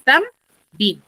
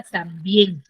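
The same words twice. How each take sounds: First: "tam, bien" as two separate syllables with a pause; split into syllables. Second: "también" said slowly, weight on bién; one slow word, "también", stressed at the end; stress on final syllable. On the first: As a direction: break "también" in two: tam, then bien. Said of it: "tienen dos sílabas". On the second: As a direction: lean on the second syllable of "también". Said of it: "Tiene la mayor fuerza de voz en la última sílaba". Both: Shown as a demonstration.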